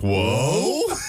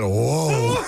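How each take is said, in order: First: The pitch rises at the end of the word. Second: The pitch falls at the end of the word. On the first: The speaker calls it right. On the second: The speaker calls it wrong.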